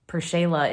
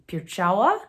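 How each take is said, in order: First: The name is said with a plain L sound. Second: The name is said with a W sound. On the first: This is the anglicized form used socially. "one of the pronunciations that was kind of thrown at it socially" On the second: This is the original Polish form. "the L has a slash through it in Polish. That makes a W sound"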